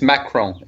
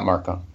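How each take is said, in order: First: The R sound comes right after the K. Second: The R sound comes right before the K. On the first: The speaker calls it right. "it's Macron is the other one" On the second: The speaker calls it wrong. "not Marcon"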